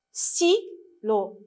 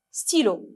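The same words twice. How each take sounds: First: "Stylo" as STY, pause, LO; syllable by syllable. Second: Said in the usual way. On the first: Shown as a demonstration. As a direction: split "Stylo" into two separate beats. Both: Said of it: "lisez avec moi".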